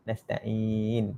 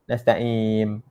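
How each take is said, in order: First: "Nasta'in" softly, lips open on n; correct final n. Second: "nasta'in" ending lips shut, as nasta'im; wrong final m. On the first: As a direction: keep the mouth open to end "Nasta'in" on n. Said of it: "buka mulut je ni". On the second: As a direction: hum an m at the end of "nasta'in". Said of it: "Nanti bunyi mim". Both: Shown as a demonstration.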